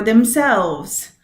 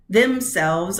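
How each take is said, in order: First: "themselves" as them-SELVES, second syllable stressed; light "them", strong SELVES in "themselves". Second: "Themselves" as THEM-selves, first syllable stressed. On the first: Teacher offering students a choice, "themselves" stressed on SELVES. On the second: Teacher offering students a choice, "Themselves" stressed on THEM. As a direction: lean on THEM in "Themselves", light second syllable. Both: Shown as a demonstration. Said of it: "you don't get to pick".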